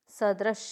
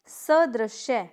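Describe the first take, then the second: First: सदृश ending on a plain "sh"; correct pronunciation. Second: सदृश्य slowly, ending in "shya"; incorrect pronunciation. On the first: Teacher correcting the class, सदृश without final "ya". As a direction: say सदृश as sa-drish. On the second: Teacher showing a mistake, सदृश्य with added "ya". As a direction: say सदृश्य as sa-drish-ye. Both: Shown as a demonstration. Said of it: "गलत".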